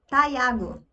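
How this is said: The name is said with an English pronunciation. This is how English speakers will say the name. "Eles vão te chamar de Taiago"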